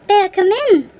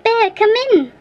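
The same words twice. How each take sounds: First: A touch less high repeated call; calling out again. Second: Higher, louder call for help. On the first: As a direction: call the bear once more, still urgent. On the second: Boy calling the bear into the cave, high shout. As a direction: summon the bear with a sharp call. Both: A narrator's reading. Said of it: "and so he called".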